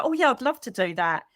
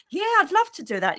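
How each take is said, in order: First: Mildly bright, dutiful agreement; polite fake yes. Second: Much higher, gushing mock-delighted yes; fake enthusiasm. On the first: Agreeing to a lunch invite she doesn't want, mild polite fake yes. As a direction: agree nicely while not meaning it. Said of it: "but your inside is saying". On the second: Pretending to love a lunch invite she dreads, hammed-up fake delight. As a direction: oversell it, sugary and insincere. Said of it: "You think, "I'd rather poke my eye hole out".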